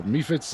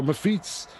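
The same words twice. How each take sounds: First: "Mephits" with long ee first, MEE-fits. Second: "Mephits" with long ee last, muh-FEETS. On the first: Host unsure of the name, tries "Mephits" as MEE-fits. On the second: Host unsure of the name, tries "Mephits" as muh-FEETS. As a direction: stress the second syllable of "Mephits": muh-FEETS. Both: Shown as a demonstration. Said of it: "not sure how you pronounce it".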